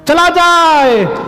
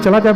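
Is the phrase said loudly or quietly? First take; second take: loudly; quietly. First: It is said loudly, projected to carry far. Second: It is said quietly, just to the nearby listener. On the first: It is meant to be overheard by someone else. "वो बोली सीता जी को सुना रही थी राम जी को" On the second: It is meant only for the person beside her. "Sita मैया से बोलना था तो ऐसे बोलती"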